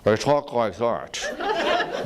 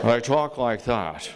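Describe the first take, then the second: First: Slow, clipped-in Episcopalian anger, laughing; tight-lipped anger. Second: Said in the usual way. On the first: Shown as a demonstration. Teacher mocking an angry Episcopalian, slow and restrained. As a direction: bottle up the anger, speak slowly. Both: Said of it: "when an Episcopalian is angry".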